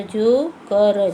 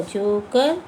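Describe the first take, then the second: First: जो कर stretched very slowly, each sound held; drawn-out demo. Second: Said in the usual way. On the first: Shown as a demonstration. Teacher stretching जो कर slowly for young pupils. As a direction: spell out जो कर slowly for the class. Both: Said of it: "ज पे ओ की मात्रा".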